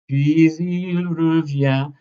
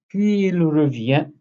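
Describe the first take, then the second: First: A very light linking consonant joins puis and il. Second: Puis and il are said without a linking consonant. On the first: The speaker calls it right. "let's put a very, very, very light elision here" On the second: The speaker calls it wrong. "I'll take it out"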